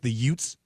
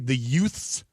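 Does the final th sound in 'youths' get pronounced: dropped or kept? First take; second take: dropped; kept. First: The th sound is dropped, sounding like Utes. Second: The word keeps its th sound. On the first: This is the intended word said in a thick accent. "thick Italian New York accent ... he says it like the Utes" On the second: This is the intended word. "he's trying to say the youths, like Y O U T H S"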